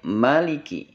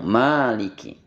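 First: The first vowel is said short. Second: The first vowel is held long. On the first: This follows the other reading traditions. "sebagian qiraat membaca dengan pendek" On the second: This follows the reading tradition being taught. "punten dibaca dengan panjang"

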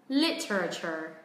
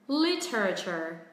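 No difference in how they are said.

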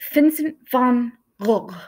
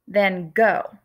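First: The name is pronounced the Dutch way, throaty. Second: The name is pronounced the familiar American way. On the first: This is how the artist said his own name. The speaker calls it right. "the correct way to say his name" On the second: This is how listeners may have heard it. The speaker calls it wrong. "you may have heard of him as"

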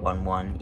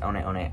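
First: Each word sounds like the English number one. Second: Each word is not said like English 'one'. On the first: The speaker calls it wrong. "that's really not how you pronounce it" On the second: The speaker calls it right. "people say it's pronounced One, One"

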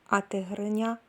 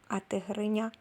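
No difference in how they are said.

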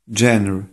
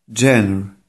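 Both takes have the same delivery.

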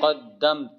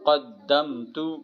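First: The word ends on a consonant. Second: The word ends with a short vowel. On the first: The reader stops on this word. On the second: The reading continues without stopping.

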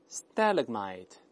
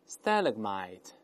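Both takes have the same delivery.

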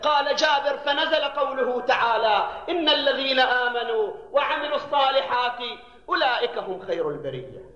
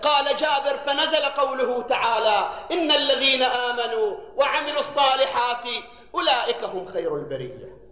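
Both takes have the same delivery.

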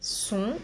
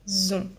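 First: The word begins with a hissing s sound. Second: The word begins with a buzzing z sound. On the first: The speaker calls it right. "On dit son" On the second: The speaker calls it wrong. "on ne dit pas zon"

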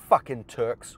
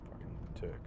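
First: The words are said clearly and distinctly. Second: The words are mumbled and unclear.

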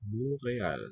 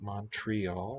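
First: The T in the word is silent. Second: The T in the word is pronounced. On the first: The speaker calls it right. "Another silent T" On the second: The speaker calls it wrong. "not Montreal, like we say"

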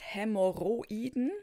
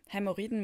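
First: Every syllable is spoken clearly and distinctly. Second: It is spoken in the ordinary, reduced everyday way. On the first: This matches the older spelling. "wenn man es deutlich spricht" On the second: This matches the newer spelling. "wie man es auch spricht"

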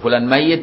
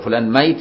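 First: The y sound in the word is doubled. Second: The y sound in the word is single. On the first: The person will die. "يعني يموت" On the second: The person is already dead. "يعني طلعت روح"

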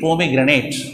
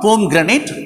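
First: The first syllable is said in the everyday way. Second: The first syllable is said like the word pome. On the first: It is the everyday reading of the word. The speaker calls it right. "we have to pronounce it as the normal way" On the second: It is the botanical reading of the word. The speaker calls it wrong. "we have to pronounce it as not pomegranate"

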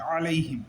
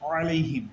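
The two takes are said the same way.

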